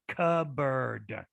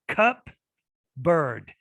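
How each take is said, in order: First: The P sound is dropped before the B. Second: Both the P and B sounds are pronounced. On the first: The speaker calls it right. "So we get rid of, we just say cupboard" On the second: The speaker calls it wrong. "It's it's utterly impossible to say both"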